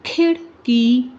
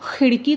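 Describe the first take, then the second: First: खिड़की with aspirated kh, drawn out; खिड़की, slow aspirated kh; correct kh. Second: खिड़की with a rough throat kh; the wrong way, खिड़की with a throaty x. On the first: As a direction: say खिड़की slowly, breathy kh. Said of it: "अब देखें". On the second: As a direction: say खिड़की as xirki, throat fricative. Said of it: "खिड़की तो नहीं ना होता". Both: Shown as a demonstration.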